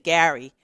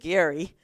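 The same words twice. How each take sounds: First: It is said with a New York pronunciation. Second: It is said with the local regional pronunciation. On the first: The speaker calls it wrong. "like most New Yorkers, you say Gary" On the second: The speaker calls it right. "I had to learn to say Gary"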